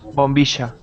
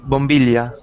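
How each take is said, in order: First: The middle consonant is an sh sound. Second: The middle consonant is an l sound. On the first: This is how people in the south and northwest say it. "we pronounce it bombisha con sh, like the same sound as she" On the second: This is how many people in the north say it. "many people pronounce it bombilla with uh, with L"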